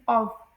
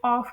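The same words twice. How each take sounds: First: ऑफ ending in a voiced v; correct pronunciation. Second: ऑफ ending in an f sound; common mispronunciation. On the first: Teacher shows how 'of' is pronounced, correct pronunciation. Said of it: "इसमें वी की sound निकलती है". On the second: Teacher mimics how people say it, mispronunciation. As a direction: say ऑफ with a final f. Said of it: "जिसे लोग ऑफ प्रोनाउंस करते हैं". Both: Shown as a demonstration.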